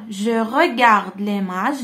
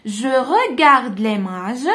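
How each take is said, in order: First: "Je regarde l'image." again slow and stretched, a bit lower; calm, slow repeat of "Je regarde l'image."; slow model reading. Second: Slow, stretched "Je regarde l'image." with the voice rising at the end; slow model reading. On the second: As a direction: read "Je regarde l'image." slowly for children to repeat. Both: Shown as a demonstration. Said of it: "teacher models French phrase".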